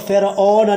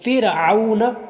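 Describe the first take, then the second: First: The second vowel is a pure majhul 'o'. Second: The second vowel is an 'aw' glide. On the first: The speaker calls it wrong. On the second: The speaker calls it right.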